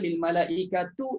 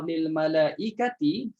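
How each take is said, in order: First: The word ends with a 'u' vowel. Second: The word ends with an 'i' vowel. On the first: This reading flows more easily into the next word. "lil malaikatu itu lebih senang" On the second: This is the usual reading, harder before the next word. "baris bawah lil malaikati"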